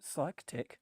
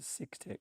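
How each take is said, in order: First: The first part sounds like 'psych'. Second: The first part sounds like 'sick'. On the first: The name suits an audience of mental health specialists. "when I'm talking to clinical psychologists and psychiatrists, I call it" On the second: The name suits an audience of other doctors. "it's handy to use the pronunciation"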